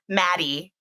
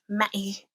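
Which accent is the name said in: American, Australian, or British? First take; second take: American; British. First: The name is said in an American accent. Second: The name is said in a British accent. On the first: The speaker calls it wrong. "It doesn't sound right in an American accent" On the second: The speaker calls it right. "it makes sense in British"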